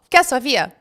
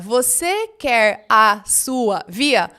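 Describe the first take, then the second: First: The words run together in a reduced form. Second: Every word is said carefully and in full. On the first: "O que, que as pessoas falam" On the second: "O certo seria"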